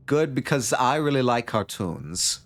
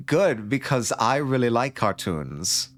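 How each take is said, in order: First: Put-on slower, re-dialed Tommy Wiseau accent; second try at a Tommy Wiseau accent. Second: Put-on slow, drawn-out first try at a Tommy Wiseau accent; rough Tommy Wiseau accent, still finding it. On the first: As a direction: Nomi redone in the Tommy Wiseau voice, slow. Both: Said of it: "I do need to dial in the Tommy Wiseau accent".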